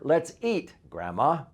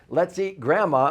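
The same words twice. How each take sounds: First: There is a pause before grandma. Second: It runs on without a pause before grandma.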